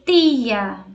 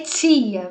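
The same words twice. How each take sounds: First: The t is a plain, clean t sound. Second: The t sounds like 'ch' before the i. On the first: The speaker calls it right. "vai ser tia" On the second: The speaker calls it wrong. "não vai ter tia"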